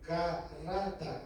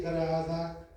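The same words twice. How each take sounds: First: "garrada" slowly, with a strong RR; slow down and roll the RR in "garrada"; correct rolled R. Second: "garada" with a weak single-tap R; mispronounced R. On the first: Trainer showing students the R to aim for, slow "garrada" with rolled RR. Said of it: "tienes que decir garrada". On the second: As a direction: say "garada" with no trill in the R. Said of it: "En vez de decir garada". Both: Shown as a demonstration.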